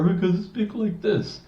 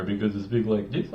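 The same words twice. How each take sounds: First: Much higher put-on voice; high voice demo. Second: Low voice demo. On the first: Coach demos another annoying voice, much higher. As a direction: squeak it up high as an annoying voice example. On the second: Coach demos an annoying voice, lower and softer. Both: Shown as a demonstration.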